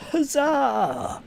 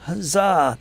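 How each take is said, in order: First: Squeaky, high-pitched huzzah; a thin, falsetto victory cry; high cheer. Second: Full-voiced, hearty huzzah; loud cheer. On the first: Pretend. Celebrating one viewer. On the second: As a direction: shout it like a rallying cry. Repeats the cheer.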